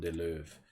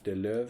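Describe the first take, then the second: First: The name is said with a German-style pronunciation. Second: The name is said with a Dutch-style pronunciation. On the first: "Like I would pronounce it in German or something" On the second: "I'm trying to pronounce it Dutch"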